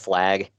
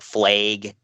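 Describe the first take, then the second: First: The vowel has the general American quality. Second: The vowel has the Minnesota regional quality. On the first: "instead of" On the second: "in Minnesota and uh, Wisconsin area, they change it"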